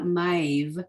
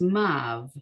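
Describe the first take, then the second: First: The vowel glides from a toward i. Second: The vowel is a plain a without glide. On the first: The speaker calls it wrong. "It's not maiv" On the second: The speaker calls it right. "It's mav"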